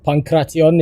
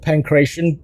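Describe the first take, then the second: First: The word is said the careful original way. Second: The word is said the casual everyday way.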